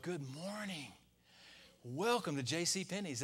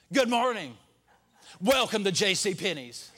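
First: Softer, syrupy shop greeting; fake-nice for the commission; a sugary sales-clerk welcome; mock sweet clerk greeting. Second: Mock grumpy greeting. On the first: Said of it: "No, it's more like". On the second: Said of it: "When you're having a bad day".

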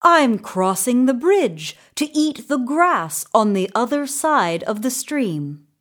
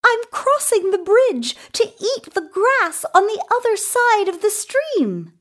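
First: Lightly voiced goat, a little high; understated creature voice; middle-sized goat. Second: Very high, fast little goat; small creature, high-pitched and hurried. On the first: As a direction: explain it as a medium-sized goat. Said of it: "said the middle-sized Billy Goat Gruff". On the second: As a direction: chirp it quickly in a tiny goat voice. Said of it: "said the little Billy Goat Gruff". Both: A narrator's reading.

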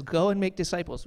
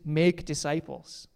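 First: Said in the usual way. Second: "make" said slowly and leaned on, as the key verb; slow down and weigh "make disciples"; stress on make. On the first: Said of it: "We emphasize the go a lot". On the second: Shown as a demonstration. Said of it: "but the verb in Greek is".

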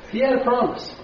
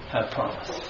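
First: Said in the usual way. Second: Breathy whisper on had a promise. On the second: Shown as a demonstration. Pastor whispers to the congregation about the thief's hope, soft. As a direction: breathe it like a secret.

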